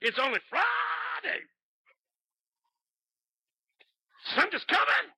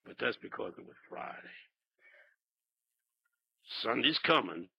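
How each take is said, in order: First: Preaching at full force. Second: Hushed, low preaching; low-gear start. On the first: Pastor building the sermon to a shouted refrain. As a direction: ring it out to the rafters. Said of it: "He took off". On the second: Pastor starting the sermon softly in low gear. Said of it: "he said". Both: Retold or imitated.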